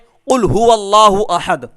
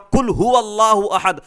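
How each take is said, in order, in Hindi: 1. पहला शब्द गहरे गले की q से शुरू होता है। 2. पहला शब्द सादे k से शुरू होता है।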